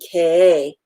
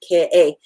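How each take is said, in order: First: It is said without a glottal stop. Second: It is said with a glottal stop. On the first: The speaker calls it wrong. "as opposed to" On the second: The speaker calls it right. "You can hear the glottal stop in there because I've got my okina"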